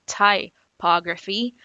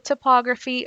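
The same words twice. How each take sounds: First: "typography" said slowly as tie-POG-ruh-fee; slow careful "typography" with a full tie opening; corrected pronunciation. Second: "typography" said tuh-POG-ruh-fee with a Miami accent. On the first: Shown as a demonstration. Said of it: "as someone corrected me recently". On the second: Real, not acted. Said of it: "Pardon my Miami accent".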